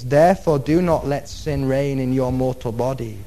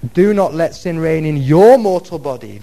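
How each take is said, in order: First: The word "your" is not given extra stress. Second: The word "your" is given extra stress.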